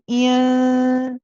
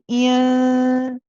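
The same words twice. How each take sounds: First: The n is hidden, carried through the nose. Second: The same.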